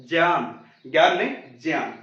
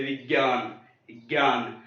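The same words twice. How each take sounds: First: ज्ञान said with a ज sound, as jnyan; the Sanskrit jnyan, starting on ज. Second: ज्ञान said with a hard ग, as gyan; the everyday gyan, with ग sound; common Hindi way. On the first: Teacher to students: correct Sanskrit ज्ञान. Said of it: "Sanskrit वाले इसका सही उच्चारण". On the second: Teacher to students: showing the common gyan mistake. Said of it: "Hindi वाले हम क्या गलतियां करते हैं". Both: Shown as a demonstration.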